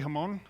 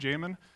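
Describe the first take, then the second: First: The name begins with an H sound. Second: The name begins with a J sound. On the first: "if you're from Spain, you can say Hamon" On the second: "That is how you pronounce my name"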